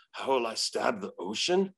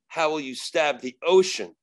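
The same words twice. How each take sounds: First: Lower, puzzled demon echoing a riddle; baffled demon. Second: Firm rhetorical challenge to an opponent; retold challenge. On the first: Retold or imitated. Demon puzzles over the exorcist's riddle, low bafflement. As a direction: repeat the question lower, as if stumped. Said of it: "And she goes". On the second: Exorcist answers the demon's threat, firm challenge. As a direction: put the question as a taunt. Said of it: "And I go".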